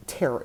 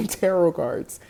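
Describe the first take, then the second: First: TAROT said "TAIR-ot", T sounded; slipped-in final T. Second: TAROT said slowly as "TAIR-oh"; silent-T pronunciation. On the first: Vlogger slipping into old habit, TAROT with a T. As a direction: say TAROT with its last T pronounced. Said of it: "now I wanna say tarot". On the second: Vlogger correcting herself, TAROT said TAIR-oh. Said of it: "or that, or tarot". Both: Shown as a demonstration.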